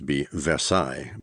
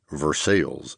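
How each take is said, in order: First: It is said with a French pronunciation. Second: It is said with a Kentucky pronunciation. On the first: The speaker calls it right. "The Romantic French way would, of course" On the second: The speaker calls it wrong. "pronounce it the same way that everyone in Kentucky did"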